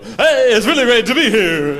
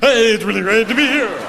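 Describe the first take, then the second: First: It is said in a fake, showbiz way. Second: It is said in a sincere, genuine way.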